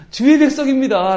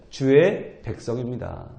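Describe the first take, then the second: First: 주의 백성입니다 said high and loud, 주의 punched; urgent insistence. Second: 주의 백성입니다 said low, soft and slow; solemn emphasis. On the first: Acted. Moses clinging to God with a loud insistent plea. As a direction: Moses holding God to 주의, loudly. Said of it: "라고 지금 붙드는 거죠". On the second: Shown as a demonstration. Preacher stressing the key words softly. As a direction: lay 주의 down slowly and quietly. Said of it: "이 한마디가 참 중요한 말이죠".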